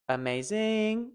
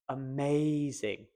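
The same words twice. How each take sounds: First: The stress falls away from the middle syllable. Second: The stress falls on the middle syllable. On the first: The speaker calls it wrong. "As much as I enjoy that last one, that is incorrect" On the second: The speaker calls it right. "Now all you need to do is focus on the main"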